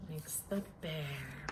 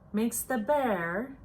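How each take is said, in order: First: Much softer, breath held; much softer repeat, held in suspense; hushed build-up. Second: Said in the usual way. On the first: A narrator's reading. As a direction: drop to a near-hush before the sneeze.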